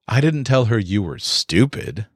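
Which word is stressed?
stupid. The stress is on stupid.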